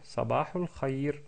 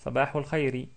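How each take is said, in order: First: It ends on the consonant 'r'. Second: It ends with a short 'i' vowel. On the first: "ils s'arrêtent sur une soukoun, donc on dit Sabahul Khair" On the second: "il y a une kasra à la fin, donc on peut prononcer Sabahul Khairi"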